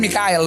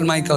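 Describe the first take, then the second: First: The name is said as Mi-ka-el, three syllables. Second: The name is said English-style, as Maikel. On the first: This is how Batak people say the name. "kalau orang Batak bilangnya kan Mikael" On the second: This is how the speaker's name has always been said. "bukan Michael ya"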